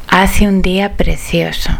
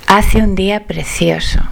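The two takes are said the same way.

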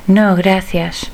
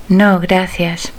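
The two takes are said the same way.

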